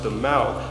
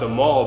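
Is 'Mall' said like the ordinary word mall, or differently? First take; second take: differently; ordinary. First: It uses the street name's own pronunciation. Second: It sounds like the ordinary word mall. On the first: The speaker calls it right. "it's actually pronounced the Mall" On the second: The speaker calls it wrong. "it's spelled like the mall"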